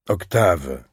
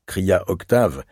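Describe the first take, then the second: First: A gentle mother's reproach, falling; reproachful. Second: Said in the usual way. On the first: A narrator's reading. Mother reproaching her teasing son, gentle and falling. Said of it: "d'un ton de reproche".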